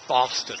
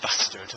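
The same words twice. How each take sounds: First: It is said in a posh accent. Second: It is said in a northern accent. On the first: "They'd say bastard" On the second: "rather than bastard"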